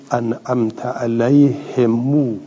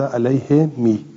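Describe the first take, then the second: First: "علیه مو" as "alayhe mu", i-vowel then u; kasra into damma. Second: "علیه می" as "alayhe mi", ending on long i; kasra on mim. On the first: Teacher showing the heavy form, "علیه مو" said "alayhe mu". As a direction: move from "he" to a long "mu" in "علیه مو". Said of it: "این ثقیل بود که از کسره بریم رو ضمه". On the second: Teacher giving the easier reading, "علیه می" said "alayhe mi". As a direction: keep "می" on an i-vowel after "he" in "علیه می". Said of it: "ولی گفتن علیه می". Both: Shown as a demonstration.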